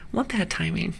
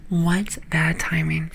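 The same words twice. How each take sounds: First: Said in the usual way. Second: Slow, drawn-out "What bad timing"; slow emphatic repeat. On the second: Real, not acted. Repeats remark slowly for emphasis.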